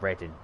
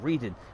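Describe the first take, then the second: First: It does not sound like the word 'reading'. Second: It sounds like the everyday word 'reading'. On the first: The speaker calls it right. "It's called Reading" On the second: The speaker calls it wrong. "It's not"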